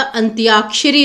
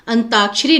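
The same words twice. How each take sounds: First: अंत्याक्षरी as "antyaakshari"; added y. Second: अंताक्षरी as "antaakshari", no y; missing y. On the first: Teacher correcting students, अंत्याक्षरी with clear "tyaa". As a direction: sound the y after t in अंत्याक्षरी. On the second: Teacher showing the common error, अंताक्षरी without y. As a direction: say अंताक्षरी with plain "taa". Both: Shown as a demonstration. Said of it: "य वर्ण आता है उसमें".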